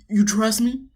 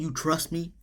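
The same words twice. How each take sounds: First: The voice is ordinary, not put on deep. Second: The voice is put on deep and dramatic. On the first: Closer to how the man really said it. "He don't say it like that, you know. You know I'm dramatic" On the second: An exaggerated imitation of the man. "he want to put some bass in his voice"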